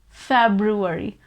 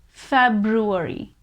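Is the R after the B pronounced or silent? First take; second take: pronounced; pronounced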